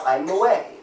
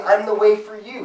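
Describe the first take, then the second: First: "I'm the way" short and firm, with "way" stressed and falling; firm correction. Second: "I'm the way for you" raised in pitch, with "way" stressed; wrong version, higher. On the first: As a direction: cut it off at "way", definite. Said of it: "He said". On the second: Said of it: "He didn't say". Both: Shown as a demonstration.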